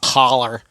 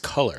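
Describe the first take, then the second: First: It is said with the vowel of 'collar'. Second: It is said with the vowel of 'color'. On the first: The speaker calls it wrong. "It's not collar. Collar is what's around your neck" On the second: The speaker calls it right. "that's how you pronounce it"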